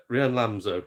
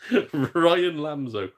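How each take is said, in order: First: Said in the usual way. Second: Ryan said slowly as RYE-an; careful correct name. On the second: Shown as a demonstration. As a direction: deliberately say Ryan Lamzo as Ryan. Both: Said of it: "my name's pronounced Ryan".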